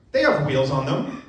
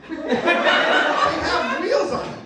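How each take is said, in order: First: Said in the usual way. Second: High, slow, laughing through it; squeaky laughing repeat. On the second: Real, not acted. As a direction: break up laughing on the words.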